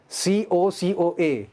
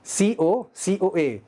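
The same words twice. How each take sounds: The two takes are said the same way.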